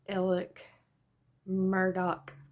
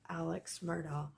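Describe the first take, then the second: First: The first name ends with a plain k sound. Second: The first name ends with a ks sound. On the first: This is how the local people say the name. "they pronounce it" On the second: This is the speaker's habitual way of saying it. "I always say"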